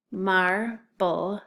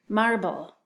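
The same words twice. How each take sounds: First: MARBLE in two separate beats, MAR, pause, BLE; split into syllables. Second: Said in the usual way. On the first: Shown as a demonstration. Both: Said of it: "listen closely to those syllables".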